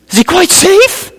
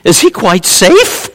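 First: Put-on much higher, little girl's squeak; hammed-up girl's squeal; squeaky frightened girl. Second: Put-on timid girl asking. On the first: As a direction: squeak it out like a scared child. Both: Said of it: "He goes".

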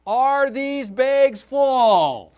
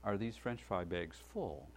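First: Much higher and louder, each word drawn out; loud slow repeat for the hard of hearing. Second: Polite quiet question. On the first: Father repeating his question to a counter girl, slow and loud. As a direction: spell it out loudly as if she can't hear. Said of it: "thought that she was hard of hearing". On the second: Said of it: "Excuse me". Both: Retold or imitated.

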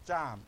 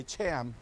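First: "Cham" with an open ah, like "chahm"; correct native pronunciation. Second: "Cham" with the short a of "ham"; American mispronunciation. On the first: Pastor correcting how the people group's name is said, native pronunciation. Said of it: "but it's pronounced". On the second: Pastor showing a congregation how most Americans say it, American mispronunciation. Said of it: "most Americans would say". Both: Shown as a demonstration.

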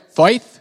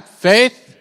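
First: Loud, high, put-on British accent; amateur British accent, pitched up for the room; mock British accent. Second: Said in the usual way. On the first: Shown as a demonstration. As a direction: say "Faith" in a hammed-up British accent. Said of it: "say it in your best British accent". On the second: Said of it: "One more time".

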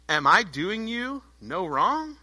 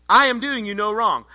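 First: "wrong" drawn out and rising, as a question; slow, measured challenge ending upward on "wrong"; questioning tune. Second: Firm denial, "I" hit first and "wrong" falling; firm statement. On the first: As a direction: ask it slowly, lifting the end on "wrong". Master's reply read as a question. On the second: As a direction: stress on "I", falling close on "wrong". Same reply restated as firm statement. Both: Acted.

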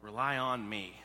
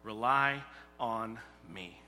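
First: Voice of God. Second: Slow, gentle "Rely on me"; slow, tender voice of God. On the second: Preacher voicing God's gentle call to Israel, slow and tender. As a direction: say it slowly like a loving promise. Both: Acted. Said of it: "is what he's teaching them".

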